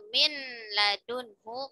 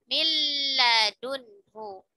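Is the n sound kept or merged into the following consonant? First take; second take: kept; merged. First: The n sound is kept before the l. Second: The n merges fully into a doubled l. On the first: "ketika kalimatnya min ladunhu" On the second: "maka dibacanya milla, milladunhu"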